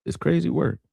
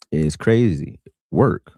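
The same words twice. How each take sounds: First: Crazy said higher and softer, falling; high, soft falling crazy work; higher, softer repeat. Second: Crazy stretched slowly with a rising tune; slow, rising crazy work; slow drawn-out emphasis. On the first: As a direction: echo it up high and quieter. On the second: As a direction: drag out crazy, let it rise. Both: Real, not acted. Repeating phrase for emphasis.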